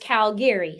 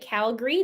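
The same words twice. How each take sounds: First: It is pronounced the way non-locals say it. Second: It is pronounced the way locals say it. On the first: The speaker did not grow up in the city. "And then there's Calgary" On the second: The speaker grew up in the city. "Those are typically the people who grew up here"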